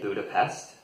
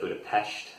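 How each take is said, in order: First: The s is said as a plain s. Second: The s is said as an sh sound. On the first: This is the usual American English way. "most Americans would say" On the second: This is the way it is said in Hungarian. "with the sh sound like they do actually in Hungarian"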